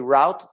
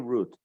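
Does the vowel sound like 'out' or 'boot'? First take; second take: out; boot. First: The vowel sounds like the one in 'out'. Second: The vowel sounds like the one in 'boot'. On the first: "some people say route" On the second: "some people say root"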